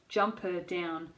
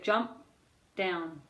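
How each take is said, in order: First: An uh vowel is inserted between the words. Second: The final p is held with no vowel. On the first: The speaker calls it wrong. "put in a schwa or an uh sound" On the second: The speaker calls it right. "hold that last sound"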